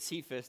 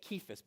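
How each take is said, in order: First: The name begins with a soft S sound. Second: The name begins with a hard K sound. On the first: This is how everybody commonly says it. "we pronounce it Cephas" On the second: This is how it is actually pronounced. "it's a harsh K"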